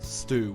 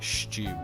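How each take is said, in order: First: The word is said without the Irish pronunciation. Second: The word is said with an Irish pronunciation. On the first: The speaker calls it wrong. "like not stew" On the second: The speaker calls it right. "how you'd say it in like the Irish way"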